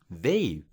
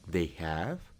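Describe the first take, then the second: First: The words are joined into one short syllable. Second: Both words are said fully and separately. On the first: The speaker calls it right. "mejor di they've" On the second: The speaker calls it wrong. "En vez de decir they have"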